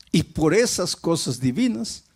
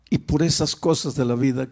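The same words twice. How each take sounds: First: Esas lifted and leaned on, divinas landing as the twist; stress on esas. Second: Said in the usual way. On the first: Shown as a demonstration. Preacher echoing his own phrase, stress on esas. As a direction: lean on esas before divinas.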